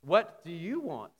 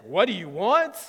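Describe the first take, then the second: First: Slower, measured question falling at the end; gentler question. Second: Louder, blunt challenge with rising end; demanding question. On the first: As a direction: ask it slowly, at an everyday volume. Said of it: "Or if he said like this". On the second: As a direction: demand an answer, with force on WANT. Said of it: "if he said like this". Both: Shown as a demonstration.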